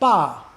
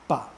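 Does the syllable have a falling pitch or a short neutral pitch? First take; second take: falling; neutral. First: The pitch starts high and falls sharply. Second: The pitch is short, light and unchanging. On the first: "the first ba is fourth tone" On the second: "it drops off and just becomes a ba"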